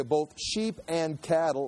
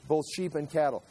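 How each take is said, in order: First: "sheep" drawn out and weighted, slowly; slow, stressed reading. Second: Said in the usual way. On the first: Shown as a demonstration. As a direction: read it again slowly, leaning on "sheep". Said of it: "and again". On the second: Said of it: "someone's pointed this out".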